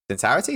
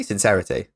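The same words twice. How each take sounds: First: "Sincerity?" tried out with a rising tune; questioning the word. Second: "Sincerity." said firmly with a falling tune; settling the word. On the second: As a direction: land the word "Sincerity." with a fall. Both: Shown as a demonstration. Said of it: "in complete sincerity".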